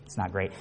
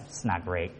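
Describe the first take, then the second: First: Low, much softer mopey repeat of "not great"; glum complainer. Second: Low, much softer mopey "not great"; glum complainer. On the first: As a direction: sink even lower, sulky. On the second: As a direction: drag it down like a gloomy coworker. Negative person's glum answer. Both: Retold or imitated.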